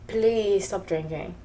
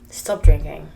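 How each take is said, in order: First: Please stop drinking said slowly, with please drawn out; slow, earnest plea with please leaning forward; pleading. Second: Firm loud command on drinking; emphatic warning. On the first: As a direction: beg them gently to stop drinking. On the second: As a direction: stop drinking said loud, lower, with drinking punched. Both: Shown as a demonstration. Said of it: "I'm telling you".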